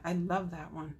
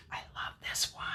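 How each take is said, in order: First: Said in the usual way. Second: Soft breathy whisper of delight. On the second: Real, not acted. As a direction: whisper it like a little secret. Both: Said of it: "I don't know why I'm whispering that".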